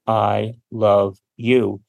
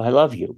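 First: It is said in a flat, robotic voice. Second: It is said in a warm, expressive voice.

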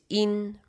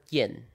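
First: It is pronounced with a Mandarin sound. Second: It is pronounced with an English sound.

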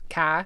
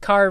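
First: The r at the end is dropped. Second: The r at the end is pronounced. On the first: "say it with a Boston accent" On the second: "the way that you would say the word car"

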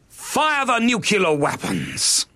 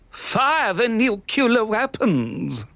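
First: It is said in an alarming, dramatic way. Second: It is said in a light, jolly way. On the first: "It's just a little bit over the top at the moment" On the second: "A bit too jolly"

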